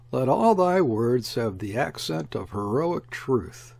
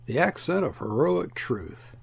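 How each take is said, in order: First: Measured, solemn quotation; solemn admonition. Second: Said in the usual way. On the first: A narrator's reading. Author quoting an emperor's saying from memory, solemn. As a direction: read it out as a grave admonition. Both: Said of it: "I remember this solemn admonition".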